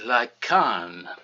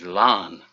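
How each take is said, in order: First: The name is said with Welsh pronunciation. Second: The name is said with English pronunciation. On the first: "there's a Welsh translation which is more akin to Lycan" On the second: "the English pronunciation of the town in South Wales is Larne"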